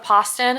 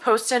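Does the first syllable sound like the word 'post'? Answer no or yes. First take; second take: no; yes. First: The first syllable does not sound like post. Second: The first syllable sounds like the word post. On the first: "instead of Poston" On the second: "I'm gonna go with Poston ... because my last name is Post"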